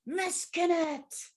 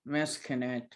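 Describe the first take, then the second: First: The name is called out loudly and forcefully. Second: The name is said flatly, like an ordinary word. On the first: It calls on them. The speaker calls it right. "Bring your inner outer magic. Like call them" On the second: It is just an ordinary word. The speaker calls it wrong. "like normal, like just a normal word"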